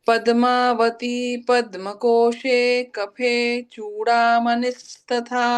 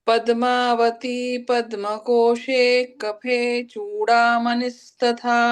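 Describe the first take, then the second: No difference in how they are said.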